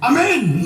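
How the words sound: The pitch rises at the end.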